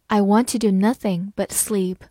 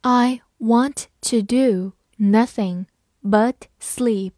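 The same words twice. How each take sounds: First: Said in the usual way. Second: Slow, word by word; slow and clear, each word apart; slow reading. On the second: Shown as a demonstration. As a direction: read it slowly for learners. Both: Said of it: "好，慢慢来读。".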